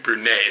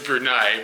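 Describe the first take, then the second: First: The final syllable is pronounced like 'nay'. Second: The final syllable is not pronounced like 'nay'. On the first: This is how the name is said in Japanese. "the Japanese pronunciation is" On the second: This is how the name is actually said locally. "the actual pronunciation, according to this guy, was"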